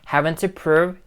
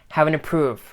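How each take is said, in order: First: Each word is pronounced clearly and separately. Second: The words are run together and shortened. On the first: "Instead of saying" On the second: "she says"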